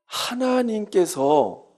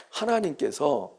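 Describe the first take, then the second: First: Slow emphasis. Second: Soft repeat. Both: Shown as a demonstration.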